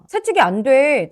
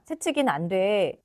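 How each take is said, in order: First: It is said in a forceful voice. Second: It is said in a timid voice.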